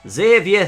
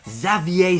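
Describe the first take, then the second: First: The name is said with a Yorkshire accent. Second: The name is said with a French accent. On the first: This is the new version of the character. "the Yorkshire lad" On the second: This is the older version of the character. "the Fre- le Frenchman"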